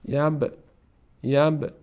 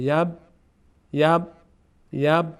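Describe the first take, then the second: First: The final b is released with a bounce. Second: The final b is stopped short without release. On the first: "با قلقله" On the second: "بدون قلقله"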